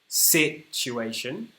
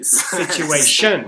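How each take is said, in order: First: The stress is on the first syllable. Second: The stress is on the fourth syllable.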